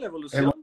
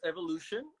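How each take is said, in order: First: The name is pronounced with Spanish sounds. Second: The name is pronounced with English sounds. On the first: "en español" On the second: "en inglés"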